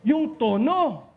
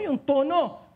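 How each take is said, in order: First: "tono" drawn out slowly and stressed; teacher stressing "tono" slowly for the class; slow emphasis. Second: Said in the usual way. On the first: Shown as a demonstration. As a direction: lean on "Yung tono" and stretch it.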